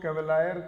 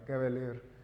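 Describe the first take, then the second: First: The word ends with a 'lyer' sound. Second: The word ends with a 'leer' sound. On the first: The speaker calls it wrong. "कैवेलायर मत कर देना" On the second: The speaker calls it right. "कैवेलियर इसका सही pronunciation रहेगा"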